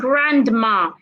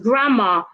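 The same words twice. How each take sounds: First: The D sound is pronounced. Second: The D sound is silent. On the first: The speaker calls it wrong. "We don't say grandma" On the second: The speaker calls it right. "The D is silent. It's grandma"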